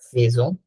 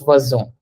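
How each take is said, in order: First: The first syllable sounds like English 'phase'. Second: The first syllable does not sound like 'phase'. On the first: The speaker calls it wrong. "it sounds like it should be phase. It's not" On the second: The speaker calls it right. "It's fazon"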